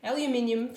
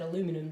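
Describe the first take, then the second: First: The word is said with five syllables. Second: The word is said with four syllables. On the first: This is the Australian way of saying it. "aluminium for us in Australia" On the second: This is the American way of saying it. "you guys in the U S pronounce that aluminum"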